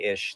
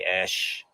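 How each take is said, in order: First: The name's vowel sounds like 'ih'. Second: The name's vowel sounds like 'eh'. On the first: The speaker calls it right. "Instead of be ish" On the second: The speaker calls it wrong. "they would say esh, because esh means jackass"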